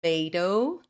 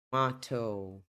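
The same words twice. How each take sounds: First: American "Tomato" with "may" in the middle; American pronunciation. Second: British "tomato" with "mah" in the middle; British English tomato, crisp t; British pronunciation. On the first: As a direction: say Tomato as "tuh-MAY-doh". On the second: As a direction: say tomato as "tuh-MAH-toh". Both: Shown as a demonstration. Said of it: "Essa é a diferença entre eles".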